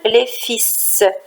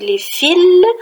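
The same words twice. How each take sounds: First: The word ends on an s sound, l silent. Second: The word ends on an l sound, s silent. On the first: It means sons. "tandis que dans le deuxième exemple, les fils" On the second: It means electric wires. "dans le premier exemple, on dit les fils"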